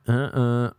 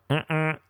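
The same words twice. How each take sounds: First: Car-horn "uh-uh" turning someone down; refusing honk. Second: Thankful "uh-uh", pitched up; higher car-horn "uh-uh" for thanks; high-pitched honk. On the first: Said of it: "But now my". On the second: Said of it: "The high-pitched one is my". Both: Shown as a demonstration.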